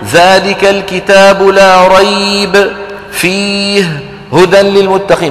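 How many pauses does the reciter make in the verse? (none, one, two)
two. There are pauses both before and after one word. The speaker calls it wrong. "ما بصير هذه فيه وقف قبلها وقف بعدها"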